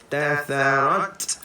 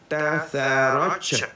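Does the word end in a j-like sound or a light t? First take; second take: light t; j-like. First: The final t ends with a light breathy release. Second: The final t is overdone into a j-like sound. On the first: The speaker calls it right. "keluarkan lagi sifat hamas dia" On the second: The speaker calls it wrong. "Jangan bunyi tatharaj, jangan eh"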